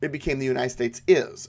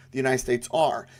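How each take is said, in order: First: "the United States is" with "is" pressed firmly; singular verb "is" made prominent; stress on is. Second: "the United States are" with "are" pressed firmly; stress on are. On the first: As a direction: lean on "is" to show one single nation. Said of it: "After the war between states". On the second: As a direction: lean on "are" to show the states as many. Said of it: "it was the United States are". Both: Shown as a demonstration.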